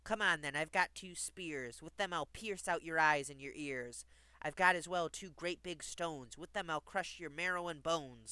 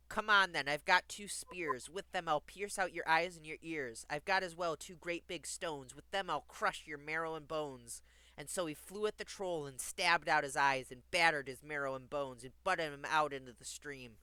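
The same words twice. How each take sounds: First: Lightly voiced challenging goat; emphatic storybook threat, mildly acted; big billy goat. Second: Louder, punched-up story reading; firm, forceful storybook narration; emphatic rereading. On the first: A narrator's reading. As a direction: dare the troll, with firm stresses. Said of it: "who had a deep, gruff voice". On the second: Acted. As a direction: drive the violent passage home. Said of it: "I'll read that part again".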